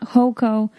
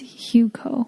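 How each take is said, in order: First: The first syllable sounds like 'ho'. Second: The first syllable sounds like 'hoo'. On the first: The speaker calls it wrong. "It's not Hoco" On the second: The speaker calls it right. "It's Huco"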